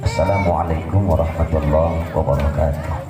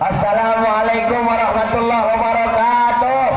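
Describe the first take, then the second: First: The greeting is said at a low pitch. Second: The greeting is said loudly and strongly. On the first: The recitation that follows starts low too. "nadanya rendah" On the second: The recitation that follows starts loud too. "kalau salamnya kuat"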